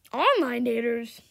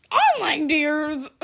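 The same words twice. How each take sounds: First: Said in the usual way. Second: Slow, louder, laughing through it; slow laughing repeat. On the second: Real, not acted. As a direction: say it cracking up. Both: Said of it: "repeated phrase".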